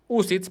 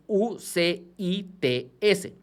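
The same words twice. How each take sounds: First: "ucits" run together as one quick word. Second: "U C I T S" slowly, letter by letter; each letter of "U C I T S" said separately in Spanish; spelled out. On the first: Teacher giving viewers the quicker form, "ucits" as one word. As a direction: say "ucits" as a short acronym word, not letters. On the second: Teacher reading a fund name to viewers, spelling out "U C I T S". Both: Shown as a demonstration. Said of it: "para decirlo más rápido".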